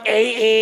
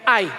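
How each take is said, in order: First: It is said as two vowels, ah then ah. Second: It is said as one syllable, like eye. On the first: "yung iba naman A A" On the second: "eto I. Basta sa atin, I"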